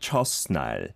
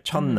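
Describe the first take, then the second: First: The first syllable ends with an s sound. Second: The first syllable's ending merges into the n. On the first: The speaker calls it wrong. "he pronounced the shiopachim on chot, so he said something like chosnal" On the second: The speaker calls it right. "So the T kind of disappears, right?"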